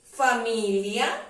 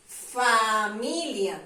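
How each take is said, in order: First: Said in the usual way. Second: "Familia" with a long, drawn-out "Fa"; primera sílaba alargada. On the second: Shown as a demonstration. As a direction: stretch the "Fa" in "Familia" slowly so the syllable stands out. ("Familia" con la "Fa" muy alargada) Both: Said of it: "¿Será que comienza por fe?".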